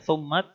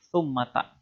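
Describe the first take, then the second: First: The word ends on a bare final t. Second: The word ends with an added a vowel. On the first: "bisa dibaca summat" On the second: "bisa dibaca summata"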